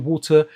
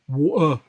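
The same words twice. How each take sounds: First: The T in the middle is clearly pronounced. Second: The T in the middle is dropped. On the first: "We won't say water" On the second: "we'll go water"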